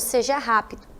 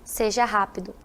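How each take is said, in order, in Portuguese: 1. É dito em tom neutro, sem emoção. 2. É dito em tom neutro, sem emoção.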